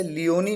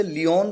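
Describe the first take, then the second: First: लियोनी ending in a long ई; sounded final E. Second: लियोन ending on the न sound; silent final E. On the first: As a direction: say लियोनी with नी as its last syllable. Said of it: "कई इसे लियोनी pronounce करते हैं". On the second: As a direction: say लियोन with no vowel after the न. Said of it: "कई लोग इसे लियोन pronounce करते हैं". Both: Shown as a demonstration.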